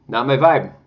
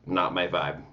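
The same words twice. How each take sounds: First: Louder, higher punchy verdict on vibe; emphatic not my vibe. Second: Said in the usual way. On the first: Shown as a demonstration. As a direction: slam it down as a final verdict.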